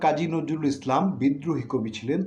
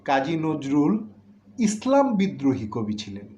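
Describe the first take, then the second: First: There is a pause after the word Islam. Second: There is a pause after the word Nazrul. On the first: Kazi Nazrul Islam was a rebel poet. "আগের বার আমি কাজী নজরুল ইসলাম বলে একটু বিরতি দিয়েছিলাম পুরো নামটা পড়ে" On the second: A man named Kazi Nazrul was a poet who rebelled against Islam. "এখন কিন্তু ইসলামের আগে আমি বিরতিটা দিচ্ছি"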